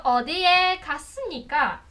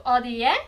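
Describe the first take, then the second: First: "O, di, e, kasnika" climbing on each syllable, slow at the end; walk the pitch up the syllables; rising syllables. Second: "O, di, e" rising step by step in pitch; rising syllables. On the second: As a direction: climb the three syllables. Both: Shown as a demonstration. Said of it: "vai subindo".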